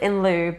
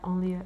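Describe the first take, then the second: First: It is pronounced with an English sound. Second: It is pronounced with a French sound. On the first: The speaker calls it right. "You pronounce it in lieu" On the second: The speaker calls it wrong. "to pronounce in French way"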